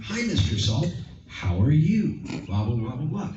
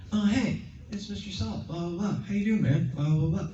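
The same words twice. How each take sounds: First: Higher, louder hammed-up hello; fake overacted greeting. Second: Much higher, lively hello; light up as if he's really there; bright excited greeting. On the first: Host showing the wrong way to greet Mister Salt, higher and louder. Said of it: "It would look really fake". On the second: Host showing the right way to greet Mister Salt, much higher and excited. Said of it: "So you have to be like". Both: Shown as a demonstration.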